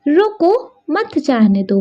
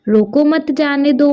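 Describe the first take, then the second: First: The pause comes after the word roko. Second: The pause comes after the word mat. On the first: Stop them from going. "रोको के बाद अल्प विराम का प्रयोग किया गया है" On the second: Let them go without stopping them. "रोको मत के बाद अल्प विराम चिन्ह का प्रयोग किया गया है"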